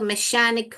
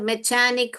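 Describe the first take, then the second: First: The middle consonant is a sh sound. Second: The middle consonant is a ch sound. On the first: "श पढ़ेंगे तो मैशानिक हो जाएगा" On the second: "यहाँ पे यह च पढ़ेंगे तो मैकेनिक हो जाएगा"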